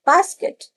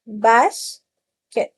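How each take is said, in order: First: "basket" said high and bright; high first take. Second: "basket" drawn out slowly; slow second take. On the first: ("basket" ऊँची आवाज़ में) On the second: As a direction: repeat "basket" slowly for the children. ("Basket" धीरे-धीरे खींचकर) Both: Shown as a demonstration. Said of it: "split करके सिखाइए".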